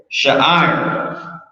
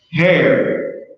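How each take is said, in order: First: "Sha'ir" said as sha-ee-ir with a rising end; careful pronunciation. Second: Said in the usual way. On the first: Shown as a demonstration. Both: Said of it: "That's how you say it".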